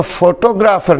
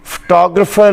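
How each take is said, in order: First: फोटोग्राफर said foto-graa-far, long vowels; फोटोग्राफर the local mispronunciation; फोटोग्राफर the wrong way; wrong pronunciation. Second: फोटोग्राफर as fuh-TOG-ruh-fer; फोटोग्राफर stressed on TOG, reduced vowels; फोटोग्राफर the English way; correct English pronunciation. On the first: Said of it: "नहीं होता". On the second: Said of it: "लफ्ज़ होता है". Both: Shown as a demonstration.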